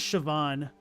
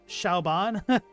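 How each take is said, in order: First: The name is said the Irish way. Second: The name is said like 'Shauban'. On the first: The speaker calls it right. "this is Siobhan" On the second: The speaker calls it wrong. "I thought it was like Shauban"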